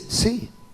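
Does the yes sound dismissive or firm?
dismissive. The yes sounds impatient and dismissive. The speaker wants to stop being asked. "Déjame quieto, no me siga preguntando"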